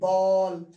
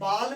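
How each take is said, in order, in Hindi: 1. यह स्वर गले से निकला गोल 'aw' है। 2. यह स्वर खुला और बिना गोल हुआ 'aa' है। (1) "बॉल, यानी गले से" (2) "बाल नहीं बोलना है भाई"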